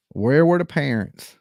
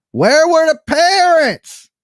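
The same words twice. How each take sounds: First: Nancy. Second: High, loud, drawn-out Nancy impression. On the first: Acted. Host repeating the question to listeners, understated Nancy impression. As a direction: lightly put on the voice for the question. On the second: Host demanding to know about the parents, loud Nancy impression. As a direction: call it out slowly in a high put-on voice. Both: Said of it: "In my best Nancy voice".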